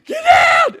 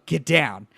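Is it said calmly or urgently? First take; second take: urgently; calmly. First: It is shouted urgently, like an alarm. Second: It is said calmly, without urgency.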